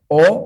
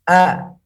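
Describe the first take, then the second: First: The vowel is lazy and rounded, like 'o'. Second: The vowel is thin, with the mouth opened wide. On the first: The speaker calls it wrong. "tidak dibaca dengan mulut yang bermalas-malasan" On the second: The speaker calls it right. "salah satu sifatnya adalah tipis"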